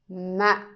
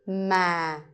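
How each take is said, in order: First: The syllable is cut short. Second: The pitch is low. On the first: "The dot tells you to make it short" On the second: "the line is telling you to go low"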